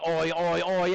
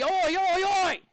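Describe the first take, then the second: First: Middling Australian chant, pitch kept down; medium Aussie cheer. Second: Loud, high Australian chant; big Aussie cheer. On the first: Teacher rating the class's cheer as medium, half-hearted Aussie chant. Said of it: "There was a medium Aussie". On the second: Teacher rallying the class for a big Aussie "oi", loud cheer. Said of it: "Can I get a big Aussie?". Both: Pretend.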